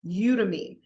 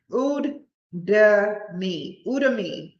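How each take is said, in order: First: Udemy said as "YOO-duh-mee"; pronounced from spelling. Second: Udemy sounded out haltingly as "OOD-uh-mee"; sounded-out pronunciation. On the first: Saying the site name after spelling it, pronounced from spelling. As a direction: start Udemy with a YOO, falling at the end. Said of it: "U D E M Y". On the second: Attempting a site name for listeners, sounded-out pronunciation. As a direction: say Udemy starting with OO, not YOO, piece by piece. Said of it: "That's the best I can say". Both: Real, not acted.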